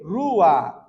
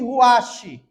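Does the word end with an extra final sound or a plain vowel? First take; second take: plain vowel; extra sound. First: The word ends on a plain vowel. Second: The word ends with an extra final sound. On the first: The speaker calls it right. "A forma correta de se pronunciar espírito em hebraico é rua" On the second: The speaker calls it wrong. "Esta pronúncia está errada"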